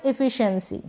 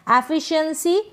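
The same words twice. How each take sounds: First: "एफिशिएंसी" starting on short I, i-fi-shun-si; short first vowel. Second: "एफिशिएंसी" starting on open AE; open first vowel. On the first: Teacher offering second option, "एफिशिएंसी" starting on short I. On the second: Teacher offering first option, "एफिशिएंसी" starting on open AE. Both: Shown as a demonstration. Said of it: "या फिर एफिशिएंसी".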